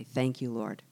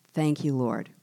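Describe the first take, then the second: First: Quiet thanks. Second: Said in the usual way. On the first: Acted. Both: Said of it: "I'm gonna change my attitude, say".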